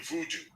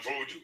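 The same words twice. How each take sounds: First: "voodoo" with oo in both syllables; the Hollywood "voodoo", first vowel oo; common mispronunciation. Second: "vodou" with an o in the first syllable; the original "vodou", opening on voh; proper pronunciation. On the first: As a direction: say "voodoo" as voo-doo. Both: Shown as a demonstration. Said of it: "mispronunciation can lead to a different narrative".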